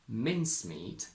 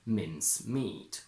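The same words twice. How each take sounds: First: The stress is on the first syllable. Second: The stress is on the second syllable. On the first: It names the mixture of dried fruits. "the first word is stressed on its first syllable" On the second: It names meat that has been minced. "the second one can and probably should be stressed on the second syllable"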